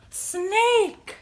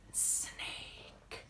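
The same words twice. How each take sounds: First: High, drawn-out animal reveal; excited reveal. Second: Whispered, long sibilant "Snake"; hissing snake whisper. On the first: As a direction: announce it brightly to children. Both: Pretend.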